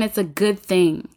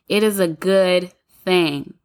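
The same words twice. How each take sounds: First: Said in the usual way. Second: Slow, with "is" leaned on hard; slow down and press "is" in It is a good thing; stress on is. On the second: Real, not acted. To her listeners, insisting it's good: "is" stressed, slow. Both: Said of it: "I just really wanna put emphasis on that".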